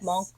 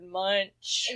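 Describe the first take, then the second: First: The name ends with a 'k' sound. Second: The name ends with a 'ch' sound. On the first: The speaker calls it right. "I didn't know it was pronounced that way" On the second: The speaker calls it wrong. "We've all been pronouncing it wrong"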